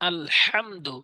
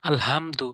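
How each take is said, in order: First: The h sound is pressed out heavily. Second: The h sound is said lightly and easily. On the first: The speaker calls it right. "এখানে চাপ দিয়ে উচ্চারণ করতে হবে, ভর দিয়ে" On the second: The speaker calls it wrong. "এভাবে সহজ করে বলে দেয়"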